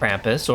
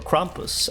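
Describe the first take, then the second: First: It is said with an English pronunciation. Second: It is said with a German pronunciation.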